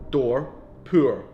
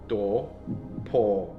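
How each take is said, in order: First: Said in a Scottish accent, the words not rhyming. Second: Said in an imitated English accent, the words rhyming. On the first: "For me, they don't rhyme" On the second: "That's a really bad attempt at like an English accent"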